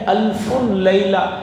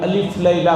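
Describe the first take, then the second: First: The first word is said as alfun, ending -un. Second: The first word is said as two-syllable alif. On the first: This is the original form of the name. The speaker calls it right. "ये असल में है अल्फुन Laila" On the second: This is how people here commonly say it. The speaker calls it wrong. "जिसे हमारे यहाँ लोग अलिफ लैला कहते हैं"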